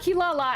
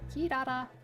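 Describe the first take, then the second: First: The name is said with L sounds. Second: The name is said with R sounds. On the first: The speaker calls it wrong. "as they say in the they say in the dub" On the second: The speaker calls it right. "I will not say it with L's"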